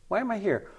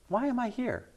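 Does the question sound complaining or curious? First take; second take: curious; curious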